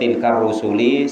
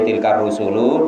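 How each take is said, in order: First: The final word ends with an i vowel. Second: The final word ends with a u vowel. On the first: The phrase is read as a possessive construction. "sebagai mudhof mudhof ilaih" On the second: The phrase is read as the subject of the sentence. "disebagaikan mubtada"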